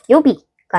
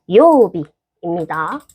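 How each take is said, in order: First: The first vowel is short and clipped. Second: The first vowel is stretched out long. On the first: The speaker calls it wrong. "요비가 아니고" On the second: The speaker calls it right. "요를 쭉 늘려서"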